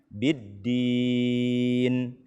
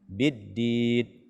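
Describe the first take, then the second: First: The final n is held with nasal resonance. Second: The final n is cut off abruptly. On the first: The speaker calls it right. "berikanlah hak gunnahnya" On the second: The speaker calls it wrong. "terlalu cepat kita berhenti ... tidak"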